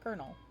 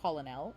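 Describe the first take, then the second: First: The first vowel is an E sound, not O. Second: The first vowel is an O sound, like colon. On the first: The speaker calls it right. "it is in fact colonel" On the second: The speaker calls it wrong. "this word is not colonel"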